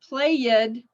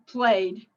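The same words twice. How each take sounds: First: The ending is said as an extra syllable. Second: The ending is a plain d sound. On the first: The speaker calls it wrong. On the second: The speaker calls it right.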